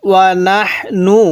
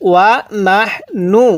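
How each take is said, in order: The two takes are said the same way.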